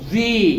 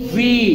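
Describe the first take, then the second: First: The v is made with lip against teeth. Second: The v is made with lip against teeth.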